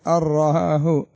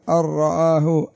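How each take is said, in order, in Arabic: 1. تندمج النون تمامًا في راء مشددة. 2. تندمج النون تمامًا في راء مشددة.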